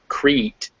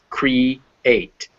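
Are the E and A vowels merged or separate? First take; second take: merged; separate. First: The E and A blend into one vowel. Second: The E and A are two separate vowels. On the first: The speaker calls it wrong. "so it's not" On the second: The speaker calls it right. "The E and the A are making two separate noises"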